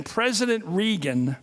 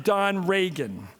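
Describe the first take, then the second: First: "Regan" said REE-gun, slowly; swapped surname pronunciation. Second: "Regan" said RAY-gun, slowly; swapped surname pronunciation. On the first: Speaker of the House mixing up the president's name, "Regan" as REE-gun. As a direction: say "Regan" with a long ee. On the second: Speaker of the House mixing up the secretary's name, "Regan" as RAY-gun. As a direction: say "Regan" like Reagan, with an ay. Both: Retold or imitated. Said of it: "loved mixing up the president's name with Don Regan".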